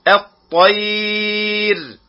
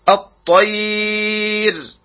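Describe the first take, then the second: No difference in how they are said.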